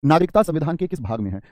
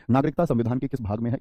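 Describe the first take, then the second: First: नागरिकता said louder, pitched up and falling; emphatic question. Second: Said in the usual way. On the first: Shown as a demonstration. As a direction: call out the question to the class, stressing नागरिकता.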